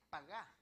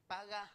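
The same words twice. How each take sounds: First: Pagá with the stress on the second A; stress on final A. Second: Said in the usual way. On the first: Shown as a demonstration. Preacher pronouncing pagá in Hebrew, stressed on the final A. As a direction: punch the last A of pagá. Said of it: "pero con acento en la A, la segunda A". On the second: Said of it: "Es paga, pero con acento".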